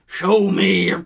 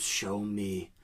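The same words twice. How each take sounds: First: Higher, much louder cry of frustration; frustrated shout. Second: Muttered demand. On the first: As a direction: yell it at the compass. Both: Acted. Captain pleads with his compass.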